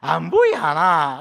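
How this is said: It has strong, exaggerated regional intonation.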